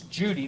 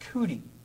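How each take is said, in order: First: The name begins with a j sound. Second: The name begins with a k sound. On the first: "they can't pronounce Judy" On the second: "they pronounce it Cootie"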